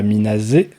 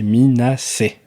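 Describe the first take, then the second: First: It ends with a z sound then 'é'. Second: It ends with an s sound then 'é'. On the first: The speaker calls it wrong. "c'est pas Minazé" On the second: The speaker calls it right. "c'est Minacé"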